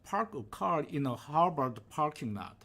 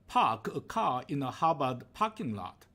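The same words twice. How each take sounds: First: The R sounds are clearly pronounced. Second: The R sounds are dropped, Boston style.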